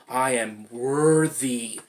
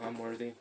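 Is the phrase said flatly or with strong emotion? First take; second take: strong emotion; flatly. First: It is said with strong emphasis and feeling. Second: It is said flatly, without feeling. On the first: The speaker truly means it. The speaker calls it right. "you push those emotions into it" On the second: The speaker does not really mean it. The speaker calls it wrong. "Not like, oh, ... whatever"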